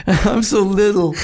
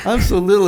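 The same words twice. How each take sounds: First: Drawn out, emphatic. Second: Said in the usual way. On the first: Shown as a demonstration.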